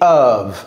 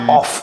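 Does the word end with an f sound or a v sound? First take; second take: v sound; f sound. First: The word ends with a v sound. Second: The word ends with an f sound. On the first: The speaker calls it right. "C'est of" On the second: The speaker calls it wrong. "Ce n'est pas off"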